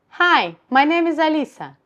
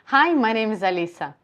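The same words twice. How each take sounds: First: The voice sounds raised and higher in pitch. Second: The voice is at its ordinary natural pitch. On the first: "Higher position of larynx" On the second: "I'm talking to you in my natural position"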